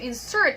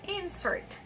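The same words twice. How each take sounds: First: The stress is on the second syllable. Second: The stress is on the first syllable. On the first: It is used as a verb. "the first in insert there is a verb, insert, and then the stress is in the second syllable" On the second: It is used as a noun. "the second insert is a noun, all right? So of course we stress the first syllable"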